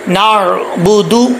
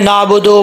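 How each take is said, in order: First: The final syllable ends in an 'oo' vowel. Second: The final syllable ends in an 'oh' vowel. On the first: The speaker calls it right. "दाल पेश दू होता है" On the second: The speaker calls it wrong. "लोग कैसे पढ़ते हैं, ... ऐसे नहीं पढ़ना, नाबुदो नहीं पढ़ना"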